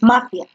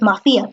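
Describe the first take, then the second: First: The stress is on the first syllable. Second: The stress is on the second syllable. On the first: The speaker calls it right. "tú dices mafia" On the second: The speaker calls it wrong. "Tú no dices mafia"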